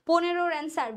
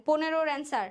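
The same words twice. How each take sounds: The two takes are said the same way.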